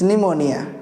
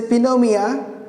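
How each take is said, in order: First: The word begins with an N sound, no P. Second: The word begins with a spoken P sound. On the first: The speaker calls it right. "It's pneumonia" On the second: The speaker calls it wrong. "there is no any disease called pneumonia"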